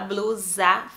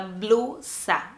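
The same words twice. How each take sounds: First: The word is said with Portuguese pronunciation. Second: The word is said with Spanish pronunciation. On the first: The speaker calls it wrong. "só que não fala blusa" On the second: The speaker calls it right. "fala blusa"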